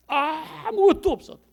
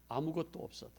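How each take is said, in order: First: 아무것도 없어도 cried much higher and louder. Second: Said in the usual way. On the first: Shown as a demonstration. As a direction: lift 아무것도 없어도 into a ringing cry. (아무것도 없어도를 높고 크게 외치듯)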